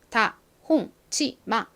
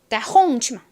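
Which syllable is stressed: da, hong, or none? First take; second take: none; hong. First: All syllables have about equal strength. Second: The stress is on the second syllable. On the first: "모든 글자가 다 비슷한 세기로 발음이 됩니다" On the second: "홍만 강하게 빡 들리고"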